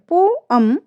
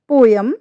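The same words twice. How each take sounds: First: पोअम with open 'अम'; correct pronunciation. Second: पोयम with a y glide; wrong pronunciation. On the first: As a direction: say पोअम with 'o-um'. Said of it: "हमारा right pronunciation है". (सही उच्चारण पोअम) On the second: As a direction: say पोयम with 'yam'. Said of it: "wrong है". (गलत उच्चारण पोयम) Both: Shown as a demonstration.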